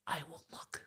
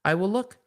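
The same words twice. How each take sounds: First: Soft unvoiced whisper. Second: Said in the usual way. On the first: Shown as a demonstration. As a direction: breathe it out as a secret.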